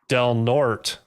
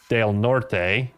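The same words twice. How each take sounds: First: The name is said with an English pronunciation. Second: The name is said with a Spanish pronunciation. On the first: The speaker calls it wrong. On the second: The speaker calls it right.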